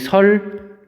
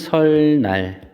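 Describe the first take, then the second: First: The second syllable begins with an l sound. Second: The second syllable begins with an n sound. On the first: The speaker calls it right. "이렇게 발음을 하죠" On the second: The speaker calls it wrong. "이렇게 우리 발음 안 하잖아"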